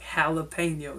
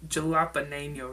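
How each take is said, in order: First: The word begins with an H sound. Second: The word begins with a J sound. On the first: The speaker calls it right. "they use that J with an H sound" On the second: The speaker calls it wrong. "It's not"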